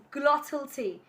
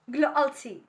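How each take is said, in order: First: Said in the usual way. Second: "glottal" with a catch in place of the middle T; glottal stop. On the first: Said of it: "What's the difference?". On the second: Shown as a demonstration. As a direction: drop the T inside "glottal" for a glottal stop. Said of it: "we often take T sound away".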